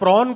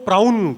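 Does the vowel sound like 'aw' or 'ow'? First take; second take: aw; ow. First: The vowel sounds like 'aw'. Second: The vowel sounds like 'ow'. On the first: The speaker calls it right. "प्रॉन को" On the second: The speaker calls it wrong. "प्राउन कहते हैं"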